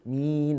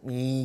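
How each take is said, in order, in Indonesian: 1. Vokal diucapkan dengan senyum sedang. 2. Vokal diucapkan dengan senyum sangat lebar. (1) "Kita sederhana. Orang kata tu sederhana saja" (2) "jangan senyum habis mi gitulah. Ha, tak lawa"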